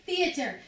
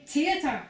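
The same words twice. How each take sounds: First: "theatre" with a clear TH at the start; TH pronunciation. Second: "theatre" with a hard T instead of TH; T pronunciation. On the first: Shown as a demonstration. Explaining to listeners how they say it, TH pronunciation of "theatre". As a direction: sound the T H in "theatre". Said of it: "I pronounce the T H". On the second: Retold or imitated. Imitating drama-school boys doing Shakespeare, hard-T "theatre". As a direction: say "theatre" as "tee-atre", louder. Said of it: "'Cause I don't say theatre".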